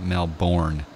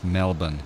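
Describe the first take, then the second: First: It is said the American way. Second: It is said the Australian way.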